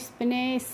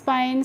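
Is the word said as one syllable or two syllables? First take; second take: two syllables; one syllable. First: It is two syllables, 'spi-ne', with a short 'i'. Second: It is one syllable with an 'eye' vowel. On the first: The speaker calls it wrong. "इस तरीके से नहीं पढ़ना है" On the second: The speaker calls it right. "आप पढ़ लेंगे"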